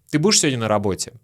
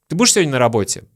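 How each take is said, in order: No difference in how they are said.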